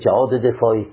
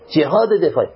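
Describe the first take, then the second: First: Jihad is pronounced with a Persian accent. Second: Jihad is pronounced with an Arabic accent. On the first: The speaker calls it wrong. "اشکال نداره صحیحه اما لهجه ایرانیه" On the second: The speaker calls it right. "این افصحه، این عربی افصح"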